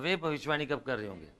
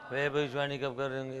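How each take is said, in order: First: It is said loudly and with strong energy. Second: It is said weakly, like a dying breath. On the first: The speaker calls it right. "Power से बोलने का" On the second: The speaker calls it wrong. "जैसे वो आखिरी सांस निकल रही है"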